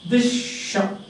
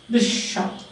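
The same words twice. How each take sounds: No difference in how they are said.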